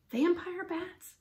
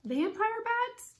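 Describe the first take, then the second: First: Slow, high-pitched dismayed question; drawn-out, horrified echo; faint with dread. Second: Very high, drawn-out rising question; stretched, soaring incredulous echo; shocked question. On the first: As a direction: repeat it slowly in alarm, falling away. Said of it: "He felt faint". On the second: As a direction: climb steeply in slow disbelief. Annie's startled echo of Jack. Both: A narrator's reading.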